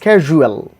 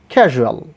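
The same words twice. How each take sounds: First: The middle vowel is a full oo sound. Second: The middle vowel is reduced, not a full oo. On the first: The speaker calls it wrong. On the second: The speaker calls it right.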